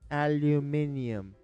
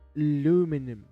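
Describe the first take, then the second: First: The word is said with five syllables. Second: The word is said with four syllables. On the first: The speaker calls it right. "It's aluminium, ladies and gents" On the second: The speaker calls it wrong. "Like kind of Frenchy, but not quite French. ... that's an American word"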